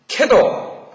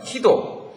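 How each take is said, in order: First: The first vowel sounds like 'ae'. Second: The first vowel sounds like 'ee'.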